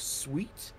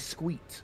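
First: The word begins with a plain 'sw' sound. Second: The word begins with a 'skw' sound. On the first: "instead of sweet" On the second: "it'll be squeet"

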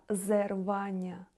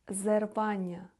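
The two takes are said the same way.

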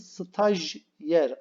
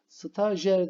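First: There is a y sound after the j. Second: There is no y sound after the j. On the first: The speaker calls it right. "Arada y sesinin olduğunu aklımızda tutalım" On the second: The speaker calls it wrong. "değil"

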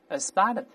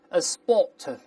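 First: It is said in an American accent. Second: It is said in a British accent. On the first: "美国人叫A spot of" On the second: "英国人读成A spot of"

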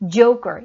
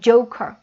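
First: The middle consonant sounds tense, almost like g. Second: The middle consonant sounds like a plain k. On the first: "크 사운드에 강세 없으면 약간 된 소리 나올 수 있다. 약간 girl 느낌 들어도 되고" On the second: "그냥 joker, cur 하셔도 괜찮아요"

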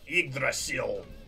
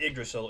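First: It is said in a dramatic, raspy voice. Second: It is said in a plain, ordinary voice.

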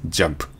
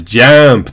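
First: The vowel is a darker, duller a sound. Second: The vowel is a bright, open a sound. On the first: The speaker calls it right. "ちょっと暗いんですよね" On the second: The speaker calls it wrong. "これをなんか明るいあで"

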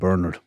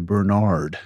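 First: The name is said the Irish way. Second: The name is said the American way. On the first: "Irish call him Bernard" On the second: "Americans would say Bernard"

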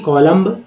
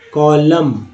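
First: A b sound is heard at the end. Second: No b sound is heard at the end. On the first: The speaker calls it wrong. "ना कि कॉलम्ब" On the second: The speaker calls it right. "कॉलम है ना"

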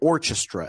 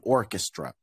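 First: The middle consonant is a 'ch' sound. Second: The middle consonant is a 'k' sound. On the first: The speaker calls it wrong. "You never say orchestra" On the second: The speaker calls it right. "whereas this is going to be character, chrome, and orchestra"

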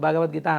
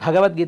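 First: The first consonant is unaspirated. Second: The first consonant is aspirated. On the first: The speaker calls it wrong. "అంటారు, చిన్న చిన్న భావతో పాటు పలకరిస్తుంటారు" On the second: The speaker calls it right. "అనడు"

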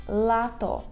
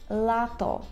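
The two takes are said the same way.

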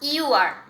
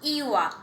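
First: Both words are said fully with the r. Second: The words merge and the r is dropped.

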